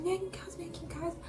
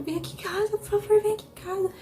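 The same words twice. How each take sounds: First: High, breathless whisper of a plea. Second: High, loud pleading cry; desperate plea. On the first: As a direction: barely whisper it, begging. Begging aunt, voice collapsing. (súplica sussurrada e aguda) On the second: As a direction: beg her to come, voice cracking up high. Begging aunt to come over. (súplica desesperada, aguda e alta) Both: Retold or imitated.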